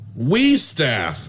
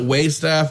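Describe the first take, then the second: First: The first syllable sounds like 'we'. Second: The first syllable sounds like 'way'. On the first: The speaker calls it right. "but it is We Staff" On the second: The speaker calls it wrong. "they pronounce it Way Staff"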